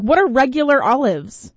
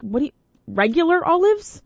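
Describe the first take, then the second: First: Puzzled demand. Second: High, rising disbelief; mock baffled high question; incredulous. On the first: Retold or imitated. Host to wife about olives, firm puzzled question. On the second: Host to wife about olives, high incredulous. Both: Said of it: "I was like".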